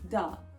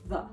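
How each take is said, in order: First: The word begins with a d sound. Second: The word begins with a th sound. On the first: The speaker calls it wrong. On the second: The speaker calls it right.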